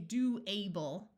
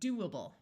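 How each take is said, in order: First: The suffix is stressed with a full long A. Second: The suffix is unstressed with a weak uh vowel. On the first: The speaker calls it wrong. "we don't say do able" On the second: The speaker calls it right. "we say doable"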